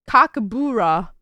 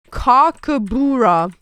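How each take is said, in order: First: Said in the usual way. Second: Cockabura drawn out and louder; each syllable of Cockabura spelled out; slow, careful Cockabura. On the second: Shown as a demonstration. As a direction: sound out Cockabura slowly.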